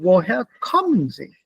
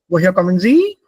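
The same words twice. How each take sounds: First: The voice falls at the end. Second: The voice rises at the end. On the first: The speaker calls it right. "Bei W-Fragen fällt die Intonation. Das ist" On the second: The speaker calls it wrong. "Die Intonation steigt nicht. Das ist nicht"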